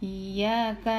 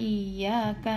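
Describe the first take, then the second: The two takes are said the same way.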